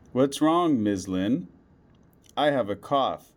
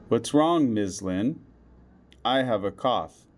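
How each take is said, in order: Both takes have the same delivery.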